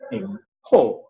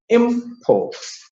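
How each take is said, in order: First: The stress is on the second syllable. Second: The stress is on the first syllable. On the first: It is a verb, the act of bringing in. "The verb" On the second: It is a noun, the goods brought in. "The noun"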